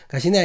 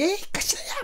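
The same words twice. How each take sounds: First: Said in the usual way. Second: "가시나야" in strong Gyeongsang dialect, pitch leaping up; old thick Gyeongsang accent, hammed up; stronger Gyeongsang intonation. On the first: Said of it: "지금이야". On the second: Shown as a demonstration. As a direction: exaggerate the rough Gyeongsang lilt, much higher. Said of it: "더 셌거든요".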